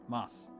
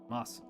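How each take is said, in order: The two takes are said the same way.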